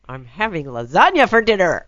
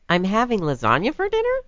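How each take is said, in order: First: It is said as a firm demand. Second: It is said as a question.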